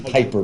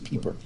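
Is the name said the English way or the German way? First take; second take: English; German. First: The name is said with an English-style vowel. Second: The name is said with a German-style vowel. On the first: The speaker calls it wrong. "We want to say Piper" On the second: The speaker calls it right. "the proper pronunciation is Pieper"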